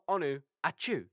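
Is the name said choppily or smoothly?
choppily. The name is broken into choppy parts. The speaker calls it wrong. "like I've just sneezed"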